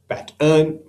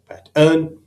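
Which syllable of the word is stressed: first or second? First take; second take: second; second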